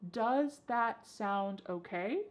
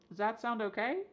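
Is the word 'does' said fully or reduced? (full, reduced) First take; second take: full; reduced. First: The word 'does' is pronounced fully and clearly. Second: The word 'does' is reduced almost to nothing.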